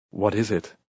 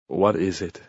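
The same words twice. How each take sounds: First: A touch of anxious worry. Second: Mildly grumpy question; grumbling. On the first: Husband to grim caretaker at the door, mildly anxious. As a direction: ask it uneasily, fearing bad news. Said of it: "he asked anxiously". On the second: Husband woken by pounding on the door, grumbling. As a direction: grumble it, irritated at being woken. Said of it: "he grumbled". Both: A narrator's reading.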